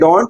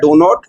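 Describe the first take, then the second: First: It is said as one contracted word. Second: It is said as two full words. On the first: "डोंट it sounds good" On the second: "डो नॉट भी ठीक है"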